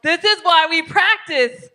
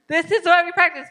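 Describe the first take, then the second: First: Higher, louder and slow; emphatic. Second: Higher, louder and quicker; emphatic repeat. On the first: Teacher urging the group to practice, loud and slow. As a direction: stress it to the class slowly. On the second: Teacher repeating to class, higher and louder. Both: Real, not acted.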